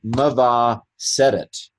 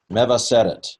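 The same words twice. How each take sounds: First: Meva seret, each syllable said slowly and carefully; sounded out slowly. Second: Said in the usual way. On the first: Shown as a demonstration. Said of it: "uh, mev".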